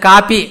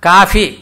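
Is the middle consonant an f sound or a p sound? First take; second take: P sound; F sound. First: The middle consonant is a p sound. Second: The middle consonant is an f sound. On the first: The speaker calls it wrong. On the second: The speaker calls it right.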